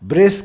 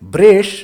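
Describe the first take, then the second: First: The word ends with a plain s sound. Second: The word ends with an sh sound.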